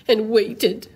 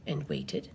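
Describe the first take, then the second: First: "waited" said with full, firm voice; "waited" punched after the hush; emphatic last repetition. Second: Low, very soft "and waited"; quiet, suspenseful repetition; hushed suspense. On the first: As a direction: land hard on "waited". Last repetition lands harder. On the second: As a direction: hold back, almost under the breath. Suspense builds through repetition. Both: Acted.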